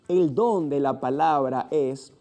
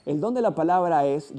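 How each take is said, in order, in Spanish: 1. Se lee muy despacio. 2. Se lee a un ritmo medio. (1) "una lectura muy lenta donde puedas pronunciar cada fonema" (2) "una lectura con una velocidad promedio"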